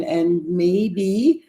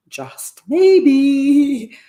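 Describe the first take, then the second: First: Said in the usual way. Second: Maybe lifted high and loud, drawn out; hopeful emphasis. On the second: Real, not acted. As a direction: lean hard into the word maybe, hopeful.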